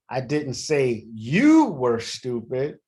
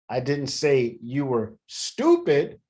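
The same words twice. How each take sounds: First: The stress is on "you". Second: The stress is on "stupid".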